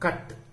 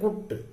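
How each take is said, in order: First: The vowel is a short open 'uh' sound. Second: The vowel is a rounded 'oo' sound. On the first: The speaker calls it right. "அப்ப இந்த அ sound கட்" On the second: The speaker calls it wrong. "we don't say குட் குட்டுன்னு சொல்ல முடியாது"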